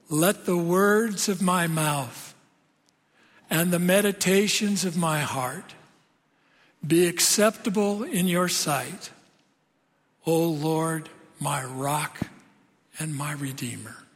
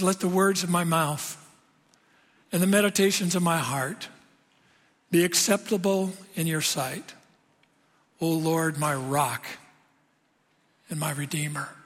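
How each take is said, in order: First: It is said slowly. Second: It is said at a normal speed.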